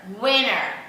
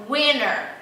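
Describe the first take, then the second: Both takes have the same delivery.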